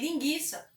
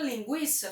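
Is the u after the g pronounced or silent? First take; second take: silent; pronounced. First: The u after the g is silent. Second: The u after the g is pronounced. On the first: The speaker calls it wrong. "tirássemos o trema por completo, tanto na escrita quanto na pronúncia" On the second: The speaker calls it right. "a palavra linguiça"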